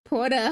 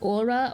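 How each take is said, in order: First: The word begins with an h sound. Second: The word begins directly with a vowel. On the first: The speaker calls it wrong. "I don't think I'm saying it right" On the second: The speaker calls it right. "without the H"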